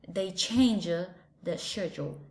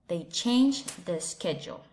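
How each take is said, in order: First: It is spoken in a British English accent. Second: It is spoken in an American English accent. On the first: "And with an British accent in British English" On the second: "In American English"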